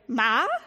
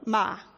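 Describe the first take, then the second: First: The pitch rises from mid to high. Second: The pitch falls sharply from high to low. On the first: It means rough. "like you're looking for your mother" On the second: It means to scold. "the way an English speaker might say it if you just read it off a page, it means to scold"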